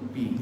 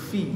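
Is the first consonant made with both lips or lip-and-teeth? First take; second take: both lips; lip-and-teeth. First: The first sound is made with both lips together. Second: The first sound uses lower lip under the teeth. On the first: The speaker calls it wrong. "Jangan pi lah. Kalau pi. Pi. Tu bibir bertemu bibir" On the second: The speaker calls it right. "Ni bibir masuk bawah gigi"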